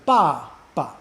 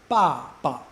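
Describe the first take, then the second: Both takes have the same delivery.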